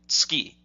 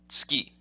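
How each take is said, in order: The two takes are said the same way.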